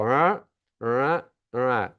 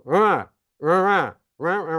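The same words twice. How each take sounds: First: Wordless "Rah" lifting upward, without the hard falls; gentler officer intonation. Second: Wordless mumbled officer tone, each RAH arched high then dropping hard; strong final falls. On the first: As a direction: let "Rah" rise smoothly like a milder, more respectful tone. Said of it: "to white drivers are more likely to go". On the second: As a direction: make each "Rah" a louder, higher swoop with a steep fall. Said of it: "strong final falls that I was imitating". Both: Shown as a demonstration.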